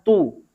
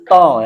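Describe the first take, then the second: First: The vowel is a rounded 'u' sound. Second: The vowel is an open 'o' sound. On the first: The speaker calls it right. "Yang sempurna adalah tu" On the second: The speaker calls it wrong. "bukan to ya"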